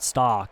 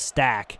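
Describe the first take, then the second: First: The vowel sounds like the one in 'stock'. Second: The vowel sounds like the one in 'stack'. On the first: The speaker calls it wrong. "I keep calling him Stock, and it's not Stock" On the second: The speaker calls it right. "It's Stack"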